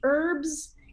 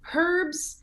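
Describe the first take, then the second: First: It starts with a vowel; the h is silent. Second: It starts with a clearly pronounced h sound.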